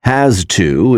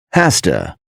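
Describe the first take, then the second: First: Said in the usual way. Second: "has to" run together as HASS-tuh; casual blended "has to", sounding like hasta; reduced has to. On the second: Shown as a demonstration. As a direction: say "has to" with a hissed s and weak "tuh". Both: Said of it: "is pronounced as".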